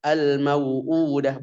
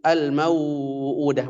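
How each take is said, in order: First: The vowel before the hamza is kept short. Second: The vowel before the hamza is drawn out long. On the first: The speaker calls it right. "tetap dibaca" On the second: The speaker calls it wrong.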